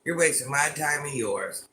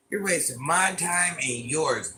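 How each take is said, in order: First: Said in the usual way. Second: MY TIME drawn out slowly; slow, deliberate dismissal. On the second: Real, not acted. Streamer dismisses a rude chatter, slow and deliberate. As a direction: spell it out slowly, stretching "my time".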